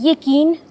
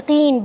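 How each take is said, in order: First: It is said with a plain front k sound. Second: It is said with a deep throat q sound. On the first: The speaker calls it wrong. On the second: The speaker calls it right.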